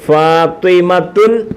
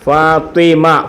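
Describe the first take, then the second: First: The name ends with an added 'tun' syllable. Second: The name ends on a plain vowel sound. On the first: The speaker calls it wrong. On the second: The speaker calls it right.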